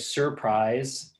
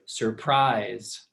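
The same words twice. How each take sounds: First: The stress is on the first syllable. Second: The stress is on the second syllable. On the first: The speaker calls it wrong. "We don't say surprise" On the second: The speaker calls it right. "notice my voice goes up at the end of the word"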